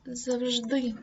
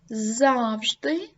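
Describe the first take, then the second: First: «завжди» з наголосом на «ди» — завжДИ; скажи «завжди» як завжДИ; second stress variant. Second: «Завжди» з наголосом на «За» — ЗАвжди; скажи «Завжди» як ЗАвжди; first stress variant. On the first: (подвійний наголос: другий варіант) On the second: (подвійний наголос: перший варіант) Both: Shown as a demonstration. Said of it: "Подвійний наголос".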